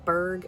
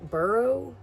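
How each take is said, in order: First: The ending is one syllable, like 'berg'. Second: The ending is two syllables, like 'borough'. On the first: "Berg as in like city" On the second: "borough as in like like Edinburgh"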